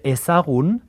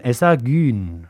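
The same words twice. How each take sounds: First: Said in the usual way. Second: Ezagun with a fronted ü in the last syllable; slow ezagun, ending in -gün. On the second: Shown as a demonstration. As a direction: round the lips and say ee for the u in ezagun. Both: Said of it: "las U's las convierten en Ü".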